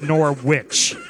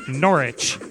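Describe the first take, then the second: First: The second syllable sounds like the end of sandwich. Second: The second syllable does not sound like sandwich. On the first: The speaker calls it wrong. "not Norwich. It's not a Nor sandwich" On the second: The speaker calls it right. "it's Norwich"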